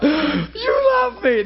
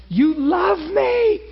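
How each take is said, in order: First: High, slow, tearful cry. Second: High, slow, crying out; tearful cry. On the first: Retold or imitated. Preacher showing how he cries alone with God. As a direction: weep the words out slowly. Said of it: "That's how I get when I'm alone". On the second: Real, not acted. Preacher alone with God, crying out in tears. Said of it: "I was so freaked out".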